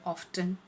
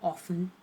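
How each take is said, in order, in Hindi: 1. t की आवाज़ साफ़ बोली जाती है। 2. t की आवाज़ साइलेंट है। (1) "टी को ज़्यादा फोर्स करके बोलते हैं" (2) "बोलते हैं हम ऑफन"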